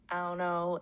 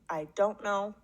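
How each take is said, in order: First: It is said in African American English, dropping the d. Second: It is said in standard English with full don't.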